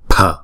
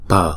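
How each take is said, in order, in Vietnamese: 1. Âm p phát ra có hơi bật. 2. Âm p phát ra không có hơi bật. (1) "chữ pờ nhưng mà nó nhiều hơi một chút" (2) "chữ P phở đứng một mình chúng ta đọc là pờ"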